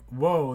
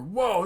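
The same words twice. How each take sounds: First: It sounds puzzled and weirded out. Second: It sounds impressed and pleased. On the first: Something seems strange. "that's kind of bizarre" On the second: Something seems great. "that's cool"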